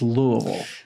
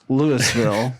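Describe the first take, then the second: First: It is pronounced the way locals say it. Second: It is pronounced the way outsiders say it. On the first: The speaker is from the city. The speaker calls it right. "the local pronunciation is" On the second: The speaker is not from the city. The speaker calls it wrong. "someone who's not from Louisville ... even worse"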